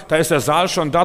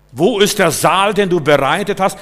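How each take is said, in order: First: Loud, higher triumphant reply; emphatic answer. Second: Booming preacher question; calling out. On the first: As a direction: announce it with certainty. Preacher answering own question. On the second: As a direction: preach it out to the hall. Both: Real, not acted.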